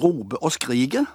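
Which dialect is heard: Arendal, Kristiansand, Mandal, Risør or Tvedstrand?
Mandal. The final r is dropped from both word endings. "Der er r-en vekke overalt i slutten av i endelstavelsene"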